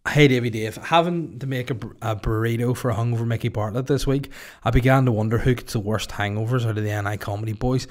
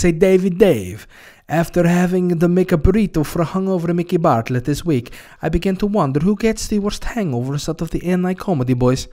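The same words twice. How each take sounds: First: Said in the usual way. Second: Louder, higher, hammy Russian voice; mock Russian accent. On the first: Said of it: "re-reads plainly". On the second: Host reading listener question in mock Russian. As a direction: read it in a put-on Russian accent. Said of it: "I don't know why I'm doing Russian".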